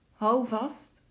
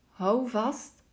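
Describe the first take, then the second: No difference in how they are said.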